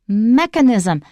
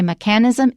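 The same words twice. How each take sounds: First: The stress is on the first syllable. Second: The stress is not on the first syllable. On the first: The speaker calls it right. "the stress is on the first syllable" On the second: The speaker calls it wrong. "Do not say mechanism"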